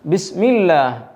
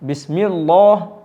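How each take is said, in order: First: The L is light and thin. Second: The L is heavy and full-mouthed. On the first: The speaker calls it right. "അവിടെ പറഞ്ഞിരുന്നു ബിസ്മില്ലാഹ്" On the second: The speaker calls it wrong. "ബിസ്മില്ലാഹ് എന്ന് പറഞ്ഞില്ല"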